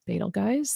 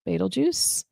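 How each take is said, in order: First: Betelgeuse said as BAY-tel-guys; alternative pronunciation. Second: Betelgeuse said as BEETLE-juice; first pronunciation variant. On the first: Teacher offering another way to name the star, Betelgeuse said "baytel-guys". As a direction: end Betelgeuse with a hard g, like "guys". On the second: Teacher naming a circled star, Betelgeuse said "beetle-juice". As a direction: end Betelgeuse in a soft j, like "juice". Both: Shown as a demonstration. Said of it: "heard it pronounced multiple ways".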